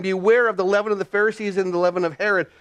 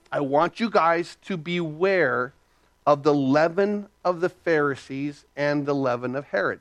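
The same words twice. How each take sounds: First: Said in the usual way. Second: Solemn warning. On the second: Retold or imitated. Acts out Jesus charging the disciples.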